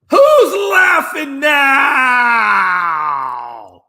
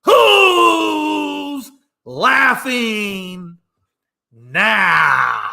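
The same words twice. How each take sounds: First: High, loud, drawn-out taunt; mocking victory shout. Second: Long, stretched-out taunt; gloating slow-motion taunt; slower taunt. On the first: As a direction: crow it at them, slow and loud. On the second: Acted. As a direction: drag it out, savouring it. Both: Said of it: "Let me say it again".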